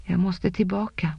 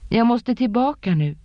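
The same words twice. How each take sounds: First: Said in the usual way. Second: Urgent insistence. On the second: A narrator's reading. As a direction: push it out, now pleading harder. She insists again, more urgently. (brådskande, högre och starkare)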